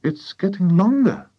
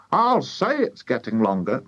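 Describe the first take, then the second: First: Put-on high boy's voice; young boy. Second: Wife's wry agreement, less high; farmer's wife. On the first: George watching the cockerel's neck, boy's high voice. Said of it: "George said". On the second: Wife agreeing with George, emphatic retort. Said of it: "Missus Cranky said". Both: A narrator's reading.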